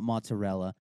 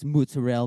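First: It is said with a plain American accent. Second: It is said with an exaggerated Italian accent. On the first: This is the everyday way the speaker says it. "not mozzarella" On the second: This is how proud Italians insist it is said. "I understand it's mozzarella"

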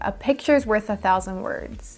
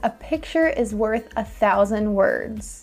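First: It is said fast, with 'is' contracted. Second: It is said fully, with 'is' pronounced separately. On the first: "Sometimes English speakers say this really fast and it sounds like" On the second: "The phrase is"

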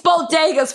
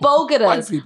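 First: The word is pronounced as bodegas. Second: The word is pronounced as bogotas. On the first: The speaker calls it right. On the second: The speaker calls it wrong.

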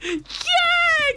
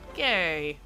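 First: It is said with lively enthusiasm. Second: It is said flatly, without enthusiasm.

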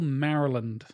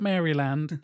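First: It is pronounced the way Americans say it. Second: It is pronounced the way British speakers say it. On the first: The speaker calls it right. "That is the correct way to pronounce it" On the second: The speaker calls it wrong. "as many fellow Brits have pronounced it over the years"

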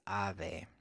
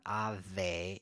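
First: The middle consonant is soft air between touching lips. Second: The middle consonant is a v with teeth on lip. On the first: The speaker calls it right. "it's ave" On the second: The speaker calls it wrong. "and it's not ave"

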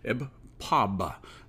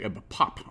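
First: The title is said carefully, each sound distinct. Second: The title is said loosely, sounds run together. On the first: The speaker calls it right. "I should enunciate more closely" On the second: The speaker calls it wrong. "I've been saying Ebb Pop"

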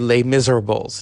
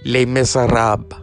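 First: The title is said with plain English pronunciation. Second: The title is said with a French accent. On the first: The speaker calls it wrong. "You can't just say Les Miserables" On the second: The speaker calls it right. "I have to say it with the accent"

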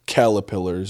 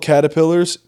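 First: The word is said with an l sound instead. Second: The word is said with a clear t sound. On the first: "calipillars when I was young" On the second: "I used to call caterpillars"

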